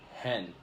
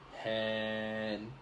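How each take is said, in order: First: The vowel is said short. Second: The vowel is said long. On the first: The speaker calls it right. "it's very short" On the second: The speaker calls it wrong. "it's not like hen"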